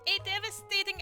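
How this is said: It is said in a put-on silly character voice.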